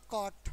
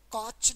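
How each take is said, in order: First: कॉट ending in a hard ट; taught pronunciation. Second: कॉच ending in a "ch" sound; mispronunciation. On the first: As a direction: say कॉट as "kawt", no "ch". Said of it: "कॉट पढ़ना". (कॉट, आखिर में साफ़ 'ट') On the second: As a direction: say कॉच with च at the end. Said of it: "तो कॉच नहीं पढ़ना". (कॉच, आखिर में 'च' की आवाज़) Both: Shown as a demonstration.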